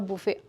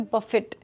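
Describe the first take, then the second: First: The final T sound is left silent. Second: The final T sound is clearly pronounced. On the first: It is the noun for a meal. The speaker calls it wrong. "not buffet" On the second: It is the verb, unrelated to food. The speaker calls it right. "this naughty letter T doesn't remain silent. We have to pronounce it"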